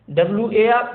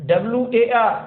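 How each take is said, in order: The two takes are said the same way.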